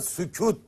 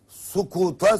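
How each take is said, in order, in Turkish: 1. İlk ünlü ince ünlüdür. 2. Ünlüler kalın ünlülerdir. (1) "sükut diyor" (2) "Kaf kaf farkıyla böyle yüzlerce kelime yanlış telaffuz ediliyor"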